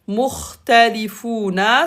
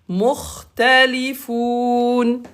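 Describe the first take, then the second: First: The word ends with a full 'na' syllable. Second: The word ends on a bare 'n' sound. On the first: The reading continues without a stop. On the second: The reader stops at the end here.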